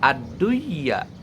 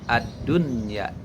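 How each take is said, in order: First: The n sound merges into the following y. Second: The n sound is pronounced clearly before y. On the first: The speaker calls it wrong. "Tidak ad-dunya" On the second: The speaker calls it right. "tapi ad-dunya menjadi idhar"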